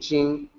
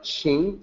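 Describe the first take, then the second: First: The word begins with a j sound. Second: The word begins with a ch sound. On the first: The speaker calls it right. "jing like J I N G ... is correct" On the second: The speaker calls it wrong. "I'm not pronouncing it like ching"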